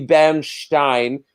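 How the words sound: It is said the German way.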